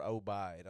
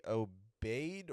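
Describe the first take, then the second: First: "Obeid" ending like "bide". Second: "Obeid" ending like "bade". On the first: Offering another reading of the surname, "Obeid" as oh-BIDE. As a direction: say "Obeid" with a long I in the second syllable. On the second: Unsure of the comedian's last name, "Obeid" as oh-BADE. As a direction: say "Obeid" with an AY in the second syllable. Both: Shown as a demonstration. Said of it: "not sure how you pronounce".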